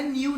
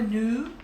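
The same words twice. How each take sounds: First: "new" said as "niw", with an ee-oo glide; mock the wrong "new" as "niw"; wrong pronunciation. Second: "new" said as a plain "nu", no ee glide; correct pronunciation. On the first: Teacher showing students the wrong way: "new" as "niw". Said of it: "Não é new". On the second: Teacher correcting the class: "new" as a clean "nu". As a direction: give the right "new" as "nu". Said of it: "não, é new". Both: Shown as a demonstration.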